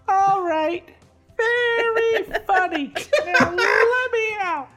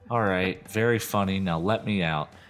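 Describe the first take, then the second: First: It is said in a tiny little voice. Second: It is said in a normal voice.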